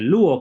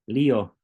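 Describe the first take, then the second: First: The vowel after the L sounds like oo. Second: The vowel after the L sounds like ee. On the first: The speaker calls it wrong. "se pronuncia como una U" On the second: The speaker calls it right. "la Y se pronuncia como como la I si estás estudiando griego en español"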